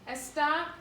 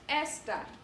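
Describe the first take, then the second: First: The stress is on the last syllable. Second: The stress is on the first syllable. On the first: He, she, or it is. "The emphasis is put on that last vowel" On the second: This or that. "Your emphasis is put on this vowel right here"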